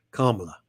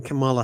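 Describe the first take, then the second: First: Kamala with the stress on the first syllable; Kamala said like comma plus la; corrected pronunciation. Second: Kamala with the stress on the middle syllable; Kamala said kuh-MAH-la; mispronounced name. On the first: Shown as a demonstration. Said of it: "a bit like saying comma". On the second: Real, not acted. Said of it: "learned how to say her".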